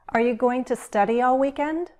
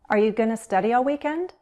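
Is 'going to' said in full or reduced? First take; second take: full; reduced. First: Going to is said fully at a slower pace. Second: Going to is reduced to gonna, spoken faster. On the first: "Let's use go and be going to" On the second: "We'll speak faster and we'll use gonna"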